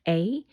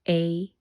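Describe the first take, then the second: First: A long vowel gliding like 'ay' is heard. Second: A long vowel gliding like 'ay' is heard.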